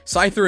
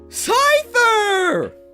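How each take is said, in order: First: The name is said in an ordinary, plain way. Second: The name is said in a big, exaggerated way. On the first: "I'm just gonna say it normally" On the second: "deep breath"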